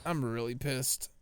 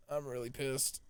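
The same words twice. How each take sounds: First: Drawn-out, slow "I'm really pissed"; slow seething. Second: Softer, muttered under the breath; quiet grumble. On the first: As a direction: let each word drag out in annoyance. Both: Real, not acted.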